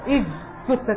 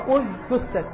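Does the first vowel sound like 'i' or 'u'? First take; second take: i; u. First: The opening vowel is an i sound. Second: The opening vowel is a u sound. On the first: The speaker calls it wrong. "فيظن عند الابتداء أن يقول إج تثت، وهذا خطأ" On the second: The speaker calls it right. "هي أج تثت"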